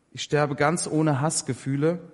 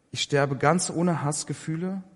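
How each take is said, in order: The two takes are said the same way.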